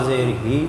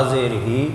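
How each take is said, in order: The two takes are said the same way.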